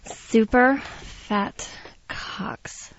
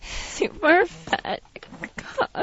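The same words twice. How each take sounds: First: It is said in a normal voice. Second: It is said in a crying voice.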